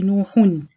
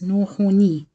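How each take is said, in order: First: The word ends on a plain n sound. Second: The word ends with an added ni sound. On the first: "Normally we say nuhun" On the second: "you pronounce it as nun kasra like this"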